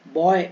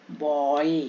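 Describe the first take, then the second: First: Said in the usual way. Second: बॉय drawn out low as "bo-ey"; "oye" sound. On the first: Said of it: "ये वो वाला बॉय नहीं है". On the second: Shown as a demonstration. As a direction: stretch बॉय so the "oye" is heard. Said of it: "ओए का आवाज आ रहा है".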